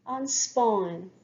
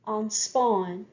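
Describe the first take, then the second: No difference in how they are said.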